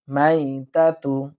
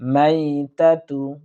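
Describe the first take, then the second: Both takes have the same delivery.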